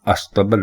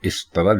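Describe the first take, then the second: First: The word begins with an 'a' vowel. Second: The word begins with an 'i' vowel. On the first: The speaker calls it wrong. "अलिफ के ऊपर जबर डालेंगे तो ये अस्तबल हो जाएगा" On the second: The speaker calls it right. "अलिफ के नीचे जेर डालकर लिखना या बोलना दुरुस्त है"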